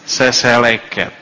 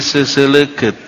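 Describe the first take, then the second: First: The word is said without any u vowels. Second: The word is said with u vowels in it. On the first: "tanpa u sama sekali semuanya seseleket" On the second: "kalau pakai u dibaca jadi seseleket"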